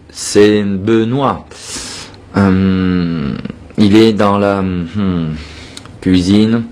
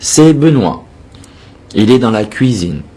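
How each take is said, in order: First: It is broken by fillers and hesitant pauses. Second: It is slow but flows smoothly without fillers. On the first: The speaker calls it wrong. "Ne pas faire ça" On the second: The speaker calls it right. "Faites lentement les phrases, mais jolies"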